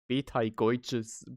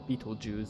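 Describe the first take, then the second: First: The name is given a German pronunciation. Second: The name is given an English pronunciation. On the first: "In German it's Betelgeuse" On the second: "do we pronounce this as Beetlejuice?"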